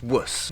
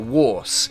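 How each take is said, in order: First: The vowel is short and reduced. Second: The vowel is full, like in force. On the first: This is the current squashed form. "it became just wuss" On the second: This is the older form of the syllable. "this probably started out more like a Warse, uh, similar to force"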